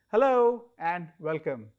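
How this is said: It is said in a cheerful tone.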